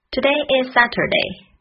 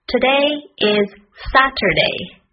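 First: "Today is Saturday" run together; quicker repeat. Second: "Today is Saturday" word by word. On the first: Teacher repeating the lesson sentence, at a quicker natural pace. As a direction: link the words smoothly, higher pitched. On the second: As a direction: separate each word, higher pitched and deliberate. Teacher models sentence slowly first. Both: Shown as a demonstration.

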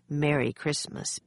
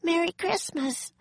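First: Said in the usual way. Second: Put-on very high little-girl voice; high-pitched, innocent holiday greeting; cheery girl's greeting. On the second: A narrator's reading. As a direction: chirp it in a high child's voice. Child Annie greets stern commander.

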